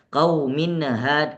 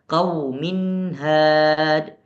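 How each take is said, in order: First: An extra vowel bounces after the n sound. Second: The n runs straight into the h. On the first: The speaker calls it wrong. "Kau minnahad enggak" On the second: The speaker calls it right. "jangan sampai terpantul"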